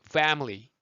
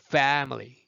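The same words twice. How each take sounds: The two takes are said the same way.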